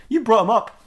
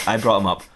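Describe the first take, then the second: First: High-pitched indignant accusation; accusing. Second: Low, understated villain confession; Darth Maul. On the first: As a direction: throw the blame back, pitched well up. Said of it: "And he goes". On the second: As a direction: own up in a low put-on character voice. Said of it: "said Darth Maul". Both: Acted.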